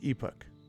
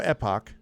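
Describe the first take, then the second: First: The word is said with a British pronunciation. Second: The word is said with an American pronunciation. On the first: "And British pronunciation is" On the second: "So American go"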